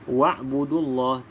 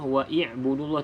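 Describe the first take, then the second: First: No vowel comes between wa and b. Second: An i vowel comes between wa and b. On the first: The speaker calls it right. "abaikan saja hamzah wasal ini dalam bacaan" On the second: The speaker calls it wrong. "tidak perlu kita baca"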